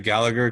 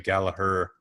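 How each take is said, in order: First: The name is said the American way. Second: The name is said the English way.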